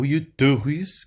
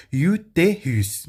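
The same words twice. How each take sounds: First: "utérus" with the middle e turned into a rounded eu; wrong mute e. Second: "Utérus" slow, with a closed é; closed acute e. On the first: Teacher showing what to avoid, wrong mute e. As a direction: say "utérus" as if it had semaine's first vowel. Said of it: "Pra não ficar". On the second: Teacher showing the acute accent, closed e. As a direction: draw out "Utérus", closed e in the middle. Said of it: "E aqui com acento agudo". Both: Shown as a demonstration.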